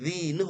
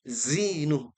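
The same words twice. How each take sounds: First: The word starts with an emphatic z sound. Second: The word starts with a plain z sound. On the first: The speaker calls it wrong. "bukan za" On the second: The speaker calls it right. "Pastikan zai"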